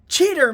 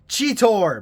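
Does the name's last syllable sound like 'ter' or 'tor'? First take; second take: ter; tor. First: The name ends with a 'ter' sound. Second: The name ends with a 'tor' sound. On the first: "He'll usually go" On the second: "And then later on, in the same bloody episode"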